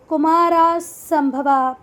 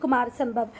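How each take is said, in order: First: Both parts end with an added 'a' vowel. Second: Both parts end on a consonant, no vowel. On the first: The speaker calls it wrong. "इसको आप लोग ऐसे भी पढ़ सकते हैं ... पर ये गलत है" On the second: The speaker calls it right. "नाम तो नाम होते हैं बेटा"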